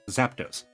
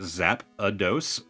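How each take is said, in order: First: No extra vowel is inserted, giving two syllables. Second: An extra vowel is inserted, giving three syllables. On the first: This is the official way of saying it. "I know it is Zapdos" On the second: This is the childhood way of saying it. "Kid me grew up pronouncing it Zap-a-dos"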